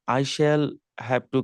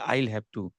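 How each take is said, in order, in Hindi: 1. 'Shall' पूरा और अलग शब्द की तरह बोला जाता है। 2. 'Shall' छोटा होकर 'I' से जुड़ जाता है। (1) "आई शैल हैव टू की जगह पर" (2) "छोटा में कहिए आईल हैव टू"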